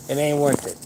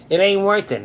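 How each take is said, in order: First: Said in the usual way. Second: Loud, higher, hammered home; emphatic. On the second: Real, not acted. Urging viewers not to let anger win, loud and emphatic. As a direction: drive the point in hard.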